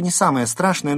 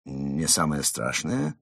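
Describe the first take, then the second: First: High, fast, louder remark; brisk, matter-of-fact. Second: Low, slow, offended question; hurt. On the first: Fox playing down Mole's danger, brisk. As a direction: toss it off quickly and briskly. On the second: Mole echoing fox's words back, hurt. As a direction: echo it slowly, rising, with injured feelings. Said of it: "переспросил Крот с обидой". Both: Acted.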